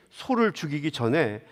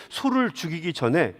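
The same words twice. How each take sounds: The two takes are said the same way.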